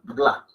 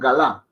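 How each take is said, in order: First: No vowel is heard between g and l. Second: A full vowel is heard between g and l. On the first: The speaker calls it right. "Nak, can, gla" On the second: The speaker calls it wrong. "No es nak, can, galá, no"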